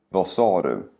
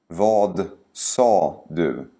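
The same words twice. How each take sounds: First: The sentence is spoken quickly and naturally. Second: The sentence is spoken slowly and carefully. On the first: "and then faster, like a native speaker would" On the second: "first say each sentence slowly"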